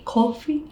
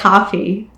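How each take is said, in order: First: Coffee is said with a New York accent. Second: Coffee is said with a general accent. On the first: "a big thing for New Yorker of saying coffee" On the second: "like anywhere else, they say like coffee"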